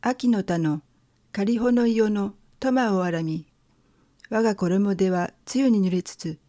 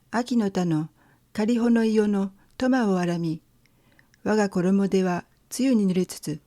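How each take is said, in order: First: Poem recitation. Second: Poem recitation again. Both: Shown as a demonstration. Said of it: "je vais lire le premier tanka".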